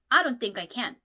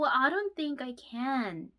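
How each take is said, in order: First: It is said in a firm, definite tone. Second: It is said in a soft, gentle tone. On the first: The refusal sounds blunt and final. The speaker calls it wrong. "너무 확실하게" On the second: The refusal sounds polite and gentle. The speaker calls it right. "부드럽게 부드럽게"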